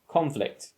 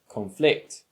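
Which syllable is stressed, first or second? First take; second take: first; second. First: The stress is on the first syllable. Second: The stress is on the second syllable.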